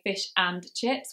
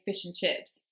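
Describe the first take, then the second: First: The word 'and' is fully pronounced. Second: The word 'and' shrinks to a short nasal sound. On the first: The speaker calls it wrong. "we don't really say fish and chips" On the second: The speaker calls it right. "we lose the and, and we just have a little mm sound"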